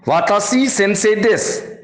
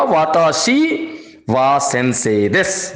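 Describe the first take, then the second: First: वाताशी सेंसे देस as the faulty example without वा; wrong sentence demo. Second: वाताशी वा सेंसे देस with वा added, slowing down; corrected sentence, slower. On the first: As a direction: say it plainly as the mistake. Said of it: "यह वाक्य गलत होगा". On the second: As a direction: present the fixed sentence a bit slower. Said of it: "अब हमारा sentence बन गया". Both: Shown as a demonstration.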